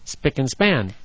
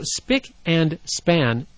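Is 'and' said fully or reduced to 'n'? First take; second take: reduced; fully. First: The word 'and' is reduced to 'n'. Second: The word 'and' is said fully. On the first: The speaker calls it right. "We always say spick and span, and it needs to be pronounced that way" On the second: The speaker calls it wrong. "is never pronounced that way"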